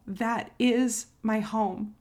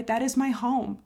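First: Slow, weighty, every word leaned on; drawn-out, heartfelt repeat; slow emphatic repeat. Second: Said in the usual way. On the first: Real, not acted. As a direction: let it sink in, slowly.

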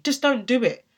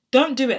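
First: Said in the usual way. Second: Louder insistence. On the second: Shown as a demonstration.

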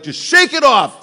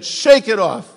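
First: Much higher, louder, dismissive; bad dad advice. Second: Louder, higher, curt; bad dad advice. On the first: Dad telling a hurt kid to shake it off, dismissive. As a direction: brush it off like a tough dad. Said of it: "that really bad". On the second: Dad dismissing a hurting kid, curt. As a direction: bark it short and dismissive. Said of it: "Does anybody ever get that?".

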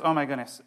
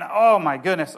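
First: Settling excitement. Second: Loud rising oh my goodness, bursting out; real excitement. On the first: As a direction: pull the excitement back in. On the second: Pastor overcome while preaching, loud excited exclaim. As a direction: let the excitement spill over. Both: Real, not acted. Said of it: "I just get so excited".

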